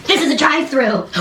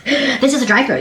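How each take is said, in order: First: Amazed disbelief. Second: Higher, stressed IS in "This is a drive-thru."; amazed disbelief again. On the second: Telling viewers about the drive-thru, stressing is. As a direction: hammer "is" in "This is a drive-thru." with wonder. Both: Real, not acted. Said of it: "amazed repeat".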